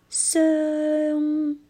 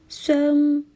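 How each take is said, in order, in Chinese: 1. 饱满的元音会滑向鼻音韵尾。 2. 这个元音短促，没有发完整。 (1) "应该是声" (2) "在歌曲里面我听到的是伤"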